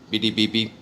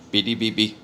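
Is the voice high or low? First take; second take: low; low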